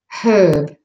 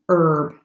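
First: The word starts with an h sound. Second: The word starts without an h sound. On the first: "In British and Australian, the H is pronounced" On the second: "only in American English is the H silent"

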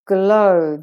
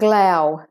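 First: The vowel sounds like the one in no. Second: The vowel sounds like the one in cow. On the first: The speaker calls it right. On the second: The speaker calls it wrong.

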